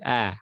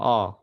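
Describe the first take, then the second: First: The vowel is said thin and light. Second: The vowel is said thick and heavy. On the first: The speaker calls it right. "tapi a ... a tipis" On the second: The speaker calls it wrong. "Bukan a, a tebal"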